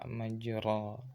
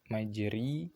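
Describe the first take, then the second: First: The vowel after r is a clear a. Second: The vowel after r is a clear i. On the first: "dan tidak ke a" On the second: "tidak langsung ke ya"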